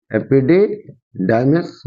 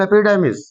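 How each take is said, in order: First: epididymis said slowly in separated parts; teacher's slow, careful repeat of epididymis; slow dictation. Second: Said in the usual way. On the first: Shown as a demonstration. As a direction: break up epididymis for students to catch. Teacher repeats term for students.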